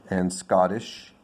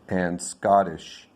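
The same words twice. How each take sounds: No difference in how they are said.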